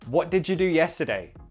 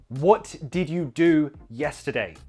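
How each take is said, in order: First: The words 'did you' are reduced to 'did ya'. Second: Every word is said fully and separately. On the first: The speaker calls it right. "we often contract did you to just did ya" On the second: The speaker calls it wrong. "Pretty robotic, right?"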